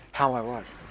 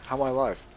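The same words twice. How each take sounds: The two takes are said the same way.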